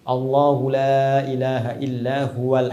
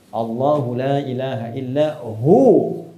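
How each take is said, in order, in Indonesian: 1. Kata huwa disambung ke depan dan dibunyikan penuh. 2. Frasa berhenti, dan huwa menjadi hu.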